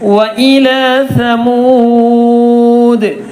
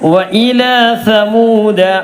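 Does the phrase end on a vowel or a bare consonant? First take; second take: consonant; vowel. First: The phrase ends on a bare consonant d. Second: The phrase ends on a vowel after d. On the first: The speaker calls it right. "ദാലിന് സുക്കൂൻ ചെയ്തു" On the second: The speaker calls it wrong. "എന്ന് പറഞ്ഞ് നിർത്തരുത്"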